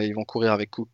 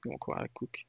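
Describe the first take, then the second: First: Said in the usual way. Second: Soft unvoiced whisper; whispered aside. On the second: Real, not acted. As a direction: drop to a whisper for the repeat. Repeats the point quietly.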